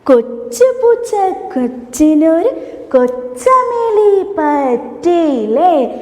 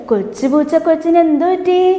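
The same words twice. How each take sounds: First: Slow singing, syllables stretched; sung, drawn-out nursery-song line; sung, children's song demo. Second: Said in the usual way. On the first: Shown as a demonstration. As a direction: sing for children to join in. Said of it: "ഒന്നുകൂടി നമുക്ക് ചെയ്താലോ?".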